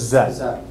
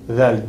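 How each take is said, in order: First: It begins with a buzzing 'z' sound. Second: It begins with a soft 'th' sound. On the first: The speaker calls it wrong. "always saying dhal as zal" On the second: The speaker calls it right. "This is a dhal"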